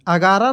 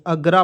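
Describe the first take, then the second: First: अगारा with a long आ in the middle, three full syllables; wrong long vowel. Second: अगरा said as two quick syllables, अग-रा, with no middle vowel; correct short form. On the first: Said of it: "नहीं पढ़ते हैं". (अगारा को बीच में लंबा आ खींचकर, गलत उच्चारण) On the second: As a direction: clip it to अगरा, the right way. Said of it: "अगरा पढ़ते हैं". (अगरा को दो छोटे अक्षरों में, सही उच्चारण) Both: Shown as a demonstration.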